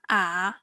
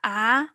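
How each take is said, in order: First: The syllable is said with the third tone. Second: The syllable is said with the second tone.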